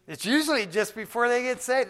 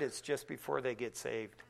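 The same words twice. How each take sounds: First: High and loud preaching repeat; emphatic repeat. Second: Softer, low confiding tone; quiet reassurance. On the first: Real, not acted. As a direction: drive the point home to the crowd. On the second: Retold or imitated. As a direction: tell her gently.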